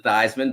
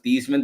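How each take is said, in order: First: The name rhymes with Heisman. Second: The name does not rhyme with Heisman. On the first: This is the changed pronunciation for the campaign. "Theismann rhymes with Heisman" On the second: This is the original pronunciation. "change the pronunciation of"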